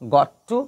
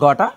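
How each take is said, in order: First: Both words are said separately and in full. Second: The words are run together as gotta.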